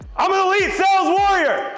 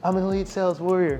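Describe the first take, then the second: First: It is screamed loudly and forcefully. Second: It is said quietly and meekly.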